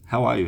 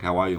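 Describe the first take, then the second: First: It sounds warm and caring. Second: It sounds quick and dismissive.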